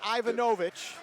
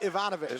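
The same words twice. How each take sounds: First: The stress is not on the second syllable. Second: The stress is on the second syllable. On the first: The speaker calls it wrong. "Not Ivanovic" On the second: The speaker calls it right. "That N is with the second syllable"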